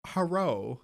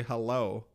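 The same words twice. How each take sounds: First: "Hello" said as "herro", L turned to R. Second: Said in the usual way. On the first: Shown as a demonstration. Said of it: "they always had, like, R's". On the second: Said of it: "they wouldn't say".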